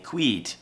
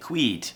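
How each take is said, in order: First: The vowel is a long 'ee' sound. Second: The vowel is a long 'ee' sound.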